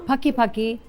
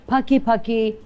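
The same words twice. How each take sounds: No difference in how they are said.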